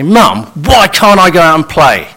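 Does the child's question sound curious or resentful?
resentful. It is asked in a resentful, complaining tone. The child is accusing the parent of being unfair. The speaker calls it wrong. "the real question there is, "Mum, why are you so unfair?"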